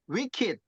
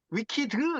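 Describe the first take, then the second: First: The final consonant is held with no vowel after. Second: A full extra syllable sounds after the final consonant. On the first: The speaker calls it right. "받침으로 간다고 생각하시면 돼요. 그래서 wicked 이렇게 읽는 거예요" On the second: The speaker calls it wrong. "위키드 이렇게 하시는데 그게 아니고요"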